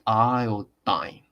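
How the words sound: The last syllable sounds like 'dine'. "American English is like iodine"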